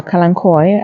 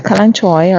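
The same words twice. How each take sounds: First: Kalanchoe ending in "koy"; hard-K pronunciation. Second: Kalanchoe ending in "choy"; CH pronunciation. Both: Shown as a demonstration. Repeats the two pronunciations, reversed.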